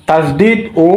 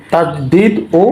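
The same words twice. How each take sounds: The two takes are said the same way.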